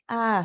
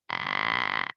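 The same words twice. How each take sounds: First: It is said with a clear, normal voice. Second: It is said with a tense creaky voice.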